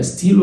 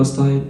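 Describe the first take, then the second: First: ستيل with a long "ee", as "steel"; French pronunciation. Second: ستايل with an "eye" vowel; English pronunciation. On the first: Teacher asking which one is right, French pronunciation. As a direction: say ستيل with "ee" in the middle. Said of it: "بالفرنساوي بتتنطق". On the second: Teacher offering the wrong option, English pronunciation. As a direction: say ستايل the English way, rhyming with "mile". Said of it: "ستيل اللي هو ستايل". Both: Shown as a demonstration.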